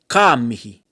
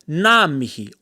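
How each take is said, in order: First: The first word begins with a k sound. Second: The first word begins with an n sound. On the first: "the N G sound pronounced like a K" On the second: "the N G sound in some parts of the country is pronounced more like a N"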